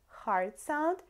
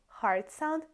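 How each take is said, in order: Both takes have the same delivery.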